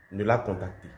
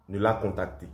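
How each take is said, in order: Both takes have the same delivery.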